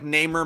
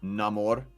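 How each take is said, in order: First: The last syllable is a weak 'mer' sound. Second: The last syllable sounds like 'more', as in amor. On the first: This is the speaker's lifelong habit. "that's just how I've always said it" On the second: This is how the movie says it. "in the movie they pronounce it Namor"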